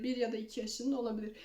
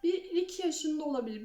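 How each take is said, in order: First: Softer, half to herself; murmured correction of the age; quieter restatement. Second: Said in the usual way. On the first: Real, not acted. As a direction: repeat it under the breath.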